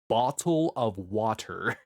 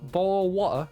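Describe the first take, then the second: First: The T sounds are clearly and forcefully pronounced. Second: The T sounds are dropped from the word. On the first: "very projected and not forced, but it's forced and very direct" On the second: "Where are the T's?"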